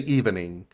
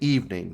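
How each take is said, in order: First: The word has three syllables, second E sounded. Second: The word has two syllables, second E silent. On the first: The speaker calls it wrong. "You don't say evening" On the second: The speaker calls it right. "The second E is almost silent"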